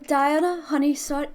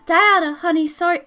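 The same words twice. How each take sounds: First: It is said in his natural voice. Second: It is said in a Mickey Mouse-like voice.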